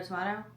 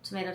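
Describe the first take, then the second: First: Tomato with a broad A, to-MAH-to; tomato pronounced tuh-MAH-toh. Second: Tomato with a long A, to-MAY-to; tomato pronounced tuh-MAY-toh. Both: Shown as a demonstration. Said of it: "how to pronounce certain words".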